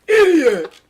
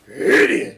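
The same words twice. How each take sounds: First: It is said in a clear, unrasped voice. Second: It is said in a rough, raspy voice.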